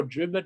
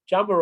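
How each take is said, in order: First: "jummer" begun almost like a d or t; alternative pronunciation. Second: "jummer" begun with a j sound; tag pronunciation variant. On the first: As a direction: say "jummer" with a harder first sound. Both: Shown as a demonstration. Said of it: "depending on how you pronounce it".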